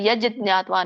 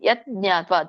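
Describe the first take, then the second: First: The first word ends in a 'j' sound. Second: The first word ends in a 't' sound. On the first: "ಅದು ಯಜ್ ಜ್ಞಾತ್ವಾ ಅನ್ ಅನ್ನೋ ಅವಶ್ಯಕತೆ ಇಲ್ಲ" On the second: "ಯತ್ ಜ್ಞಾತ್ವಾ ತ ಅಂದ್ರೂ ನಡೆಯುತ್ತೆ"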